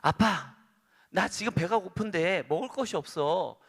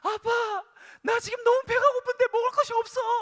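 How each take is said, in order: First: It is said in a calm voice. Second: It is said in a wailing, crying voice.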